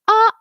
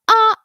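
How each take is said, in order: First: The vowel starts with a hard catch in the throat. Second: The same.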